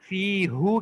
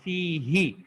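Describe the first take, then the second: First: The word ends with an u vowel. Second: The word ends with an i vowel. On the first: The speaker calls it wrong. "फ़ीहू कहने के बजाय" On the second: The speaker calls it right. "ज़म्मा की बजाय कसरा यूज़ कर लिया"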